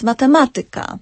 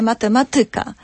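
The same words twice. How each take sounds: First: Matematyka stressed on the third syllable from the end, ma-TE-ma-ty-ka; correct Polish stress. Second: Matematyka stressed on the second-to-last syllable, ma-te-ma-TY-ka; wrong Polish stress. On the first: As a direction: say matematyka with the accent on TE. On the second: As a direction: put the error stress on TY in matematyka. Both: Shown as a demonstration. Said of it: "nie matematyka".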